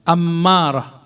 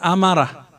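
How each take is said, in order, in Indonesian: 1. Bunyi m ditahan panjang dan digandakan. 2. Bunyi m pendek dan tunggal. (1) "tasdid di mim" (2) "bukan amarah"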